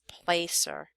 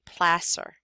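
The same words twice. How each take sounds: First: The first syllable sounds like 'place'. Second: The first syllable sounds like 'plass'. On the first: The speaker calls it wrong. "you might think it's placer" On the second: The speaker calls it right. "pronounced like it's an S S instead of a C E R"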